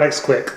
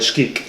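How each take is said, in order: First: The name begins with an 'ex' sound. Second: The name begins with a 'sh' sound. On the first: The speaker calls it wrong. "not X-Quick, the Kentucky god" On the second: The speaker calls it right. "it's the the pronunciation... It's uh, Shkeek"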